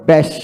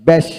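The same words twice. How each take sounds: The two takes are said the same way.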